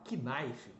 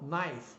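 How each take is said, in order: First: A k sound is heard at the start. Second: No k sound is heard at the start. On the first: The speaker calls it wrong. "Jamais você vai falar knife, por exemplo. Ainda bota o I lá no final" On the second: The speaker calls it right. "Nada disso. Então, knife"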